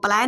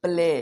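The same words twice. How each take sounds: First: प्लाई said with an "aai" glide, as the mistake to avoid; wrong pronunciation. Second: प्ले said with a clean long "e", no glide; correct pronunciation. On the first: Teacher shows viewers the wrong reading, प्लाई with an "aai" sound. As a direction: say प्लाई the wrong way, rhyming with "eye". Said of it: "इसको हम लोग प्लाई नहीं बोलेंगे". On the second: Teacher shows viewers the correct reading, प्ले with a long "e". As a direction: give the right reading, प्ले like "pleh". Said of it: "यहाँ पे क्या आप हो गया". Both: Shown as a demonstration.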